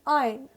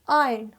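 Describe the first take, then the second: The two takes are said the same way.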